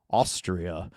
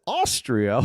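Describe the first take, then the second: First: Low, quiet, understated reply; woman's answer. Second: Lightly acted questioning echo, fuller voice; man's mistaken echo. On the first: Retold or imitated. Host retelling the woman's answer in Dumb and Dumber, low and understated. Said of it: "And she says". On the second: Host retelling the man's echo in Dumb and Dumber, questioning. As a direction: echo it back as the clueless film character. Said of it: "And then he says".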